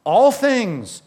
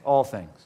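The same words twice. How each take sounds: First: All things said higher and louder with a falling All; stress on All. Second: Said in the usual way. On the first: Shown as a demonstration. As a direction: hit All hard in All things. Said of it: "then read that phrase again". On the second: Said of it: "what's the old version say?".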